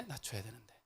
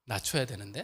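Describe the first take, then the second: First: 낮춰야 said much softer, voice brought right down; quiet, self-correcting repeat; lowered voice. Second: Said in the usual way. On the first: Shown as a demonstration. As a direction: drop the volume as you repeat it.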